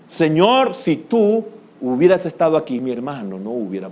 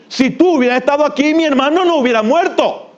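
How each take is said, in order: First: It is said in a gentle, humble tone. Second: It is said in a reproachful, accusing tone.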